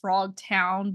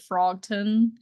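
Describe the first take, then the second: First: The last syllable is said as 'town'. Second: The last syllable is said as 'ton'. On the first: The intended name of the place. "I think he meant Frogtown" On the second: How the frog actually said it. "he pronounced it Frogton"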